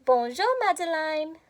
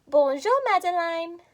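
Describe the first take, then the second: First: "Bonjour, Madeline" said gently in French sounds; French greeting. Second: Whispered "Bonjour, Madeline". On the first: Teacher giving the greeting again for kids. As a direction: model the greeting for echo. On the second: Teacher whispering the phrase for kids to echo. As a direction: breathe it out with no voice. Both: Shown as a demonstration. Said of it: "Repeat after me".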